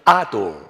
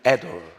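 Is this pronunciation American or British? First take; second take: British; American. First: It is said with a British accent. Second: It is said with an American accent. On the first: "영국식 발음은" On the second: "미국식 발음은"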